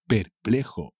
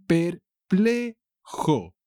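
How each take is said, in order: First: Said in the usual way. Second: "perplejo" high and very slow: per, ple, jo; "perplejo" drawn out high in three beats; syllable by syllable. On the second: Shown as a demonstration. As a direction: stretch and separate each syllable of "perplejo", pitched up. Teacher stretches word in example.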